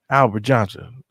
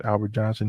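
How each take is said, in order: First: Manager calling a name, a bit loud; mock calling out. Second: Said in the usual way. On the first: New manager summons an old worker over, calling out. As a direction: call the full name across the room, louder.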